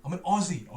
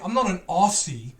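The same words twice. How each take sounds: First: "Aussie" said with a z sound, like "Ozzie"; "Aussie" with a buzzing z, as Australians say it; right pronunciation. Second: "Aussie" said with a hard s, like "Ossie"; "Aussie" with a hissed s instead of a z; wrong pronunciation. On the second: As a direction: say "Aussie" with a sharp s sound, the way Americans say it. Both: Shown as a demonstration. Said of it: "We don't say it like that".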